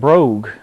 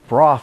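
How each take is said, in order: First: The name ends with a hard g sound. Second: The name ends with an f sound. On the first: The speaker calls it wrong. "a lot of people mispronounce it too. They call it Brogue" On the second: The speaker calls it right. "Brough is the proper pronunciation"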